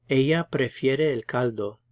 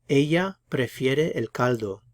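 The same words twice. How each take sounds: The two takes are said the same way.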